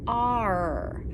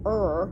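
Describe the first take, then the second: First: It is said as an 'ar' sound. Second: It is said as a plain 'er' sound. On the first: The speaker calls it right. "We call it the letter R" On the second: The speaker calls it wrong. "we don't say er for the letter R"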